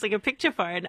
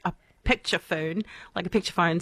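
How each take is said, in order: First: Said in the usual way. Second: Lightly put-on New Zealand accent; a half-hearted Kiwi accent on picture phone. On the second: Shown as a demonstration. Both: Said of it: "Sorry, my bad New Zealand accent".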